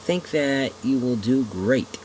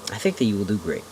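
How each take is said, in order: First: Put-on slow chuckling old man. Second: Said in the usual way. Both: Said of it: "with a hint of a chuckle in his voice".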